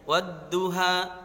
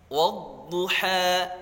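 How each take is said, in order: First: The d sound is light, with the tongue flat. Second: The d sound is heavy, with the tongue raised. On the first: The speaker calls it wrong. "Jangan bacanya wadduha" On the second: The speaker calls it right. "pangkal lidah naik ke langit-langit"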